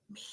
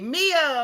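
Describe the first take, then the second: First: The name is spoken in a whisper. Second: The name is called out in full voice.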